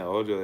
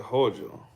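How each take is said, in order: First: The word starts directly with a vowel. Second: The word starts with a clear h sound. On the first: "instead of saying ojo" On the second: "they say hojo"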